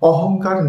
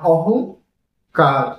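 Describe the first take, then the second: First: The word is said as one unbroken unit. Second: The word is split into two parts with a break. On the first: Educated women have no pride. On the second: Every educated woman has pride.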